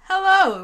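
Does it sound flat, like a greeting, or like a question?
greeting. It is said as a friendly greeting.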